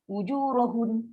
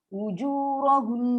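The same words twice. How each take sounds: First: The final n is cut off without a nasal hum. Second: The final n is held with a long nasal hum. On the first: The speaker calls it wrong. "Tak sempat nak keluar dengung, kita dah stop dah" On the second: The speaker calls it right. "itulah gunnah tu, kena maintain"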